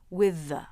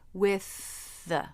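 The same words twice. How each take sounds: First: A buzzing, voiced th joins the two words. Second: One breathy, voiceless th joins the two words. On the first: "A voiced T H would also be okay" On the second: "Make it unvoiced and connect the two words with it"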